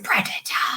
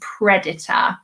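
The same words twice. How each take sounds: First: It is said in a scary voice. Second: It is said in a normal voice.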